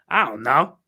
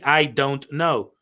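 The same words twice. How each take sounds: First: The words are reduced and run together. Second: Each word is pronounced fully and separately. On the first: "my pronunciation is is is broken. It's bad" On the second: "I'm not saying I don't know"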